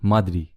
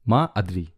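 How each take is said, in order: First: The two words are merged into one. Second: The two words are said separately.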